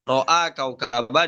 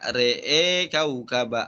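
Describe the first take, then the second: First: The first word has open a vowels. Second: The first word has vowels leaning toward e.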